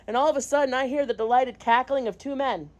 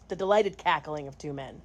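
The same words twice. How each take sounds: First: Said in the usual way. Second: Dry quiet repeat. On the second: Shown as a demonstration.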